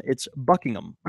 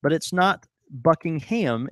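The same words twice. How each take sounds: First: "Buckingham" ending in a light -um; "Buckingham" with the ham swallowed; British Buckingham. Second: "Buckingham" with full ham at the end; "Buckingham" read as spelled, ham stressed; wrong Buckingham. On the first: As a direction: clip "Buckingham" to buck-ing-um. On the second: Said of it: "she lives at Buckingham Palace". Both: Shown as a demonstration.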